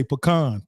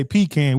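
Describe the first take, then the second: First: PECAN said puh-KAHN; pecan as puh-KAHN, the local way; local pronunciation. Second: PECAN said PEE-can; pecan as PEE-kan, flat A in the second syllable; other people's pronunciation. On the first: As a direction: stress the second syllable of pecan, with an AH. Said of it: "We say pecan". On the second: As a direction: say pecan to rhyme its end with "can". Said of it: "some people say pecan". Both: Shown as a demonstration.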